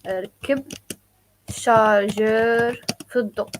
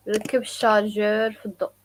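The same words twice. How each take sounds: First: "ركب" then "شارجر في الضوء" split with pauses; slow, chunked for learners; slow teaching demo. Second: "ركب الشارجور في الضوء" run together quickly; fast natural take. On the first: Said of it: "So ركب". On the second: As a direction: at natural native speed. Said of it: "some people say also". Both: Shown as a demonstration.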